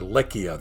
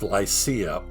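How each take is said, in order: First: It is said with a Turkish pronunciation. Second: It is said with an English pronunciation.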